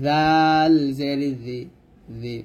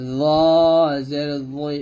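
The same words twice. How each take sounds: First: Thin জি at the tongue tip; light dhaal demonstration. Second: জই full and heavy, not like জাল; thick, heavy জ from the tongue tip; heavy emphatic letter; heavy zaa. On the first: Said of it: "পাতলা হবে". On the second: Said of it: "মোটো করে, এই জালের মতো করা যাবে না". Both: Shown as a demonstration.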